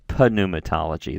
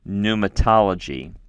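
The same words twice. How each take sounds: First: The initial p is pronounced. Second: The initial p is silent. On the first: The speaker calls it wrong. "is not pronounced in English pneumatology" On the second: The speaker calls it right. "We would do the the the the p sound silently"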